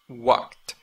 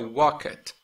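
First: The word ends with a plain T sound. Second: The word ends with an extra syllable. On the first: The speaker calls it right. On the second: The speaker calls it wrong.

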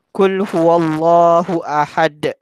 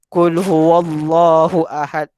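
First: The final consonant is released with an echoing bounce. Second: The final consonant is closed without a bounce. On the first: The speaker calls it right. "itu qalqalah" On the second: The speaker calls it wrong. "Kalau orang yang tak belajar tajwid, mungkin dia akan baca macam ni"

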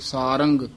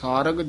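First: The word ends with a nasal ng sound. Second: The word ends without a nasal ng sound. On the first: "ਜਿੱਥੇ ਟਿੱਪੀ ਉੱਥੇ ਸਾਰੰਗ" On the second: "ਜਿੱਥੇ ਸਾਰਗ ਆਵੇ ਉੱਥੇ ਸਾਰਗ"

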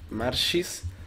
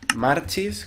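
First: The middle consonant is an 'sh' sound. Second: The middle consonant is a 'ch' sound. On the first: "con SH" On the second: "con CH"

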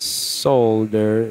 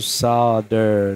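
First: The word is said with an L sound. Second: The word is said without an L sound. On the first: "with an L" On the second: "the wrong way"

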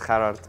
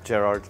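First: The name is said the South African way. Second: The name is said the local way. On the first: "so in South Africa, it's Gerhard" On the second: "Over here, it's Gerhard"

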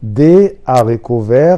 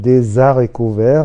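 First: The words are said without a linking z sound. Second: A z sound links the first two words. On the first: The speaker calls it right. "يا ريت كل الناس تنطق الكلمه دي معايا" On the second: The speaker calls it wrong. "مش هينفع نقول دي زاريكو فير"

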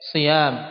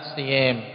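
First: The long vowel is an open a sound. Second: The long vowel leans toward an e sound.

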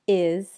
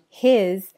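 First: The word starts without an h sound. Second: The word starts with an h sound. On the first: "his can sound like is" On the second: "his can sound like is"

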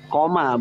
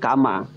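First: The word is said as 'koma'. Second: The word is said as 'kama'. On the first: The speaker calls it right. "asluhu atau aslinya kiamat itu dari kata koma" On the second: The speaker calls it wrong. "bukan kama. Kalau kama itu lain lagi"

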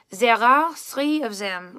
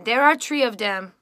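First: It has a soft Parisian French accent. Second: It has a French Canadian accent.

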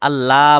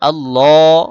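First: The vowel after the double l is short. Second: The vowel after the double l is held long. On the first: The speaker calls it wrong. "আল্লাহ বলা যাবে না" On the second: The speaker calls it right. "একালিপ টান"

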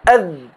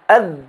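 No difference in how they are said.

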